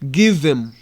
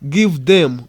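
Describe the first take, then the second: First: The words are reduced and run together. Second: Each word is said fully and separately. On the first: "we say give them" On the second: "we don't say give them"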